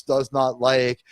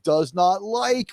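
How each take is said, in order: First: Slow "does not like", every word weighted; all-caps DOES NOT LIKE. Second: "does not like" drawn out slow, each word hit; stressed DOES NOT LIKE. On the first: Describing the banner text, slowly stressing each word. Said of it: "with the all caps". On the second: Showing his co-host's catchphrase, slow and stressed. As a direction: press down on "not" and "like", slowly. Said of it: "with, like, more emphasis to the". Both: Shown as a demonstration.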